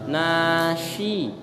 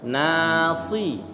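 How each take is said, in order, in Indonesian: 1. Konsonan tengahnya bunyi sh. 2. Konsonan tengahnya bunyi s biasa. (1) "Nashi itu shin" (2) "Kalau nasi sin ya"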